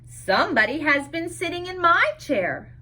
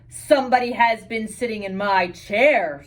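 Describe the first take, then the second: First: It is said in a middle-sized voice. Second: It is said in a great big voice.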